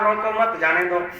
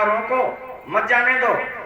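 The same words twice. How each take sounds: First: The pause comes right after 'mat'. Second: The pause comes right after 'roko'.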